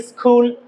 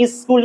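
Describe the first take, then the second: First: স্কুল as "is-khul", aspirated k; stylish mispronunciation. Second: স্কুল as "is-kul", unaspirated k; correct pronunciation. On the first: Teacher mimicking those who say it for style, mispronounced. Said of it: "খুবই style করে স্কুল". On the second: Teacher contrasting it with the stylish mistake, correct pronunciation. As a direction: say স্কুল with a plain hard k. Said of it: "স্কুল না বলে". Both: Shown as a demonstration.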